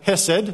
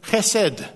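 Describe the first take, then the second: First: It is said with an Australian accent. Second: It is said with a Hebrew-like accent.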